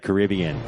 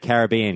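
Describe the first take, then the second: First: Caribbean is said with a non-Australian pronunciation. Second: Caribbean is said with an Australian pronunciation. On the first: "We don't say Caribbean" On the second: "I say Caribbean because I'm Australian"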